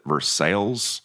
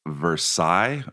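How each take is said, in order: First: It is said the way locals say it. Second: It is said in the standard way. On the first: "people pronounce it Versailles" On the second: "we have a place called Versailles"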